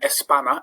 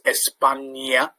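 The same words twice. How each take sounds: First: The middle nasal is a plain n sound. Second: The middle nasal is a ny sound. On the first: The speaker calls it wrong. "rather than" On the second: The speaker calls it right. "gives it the ñ sound"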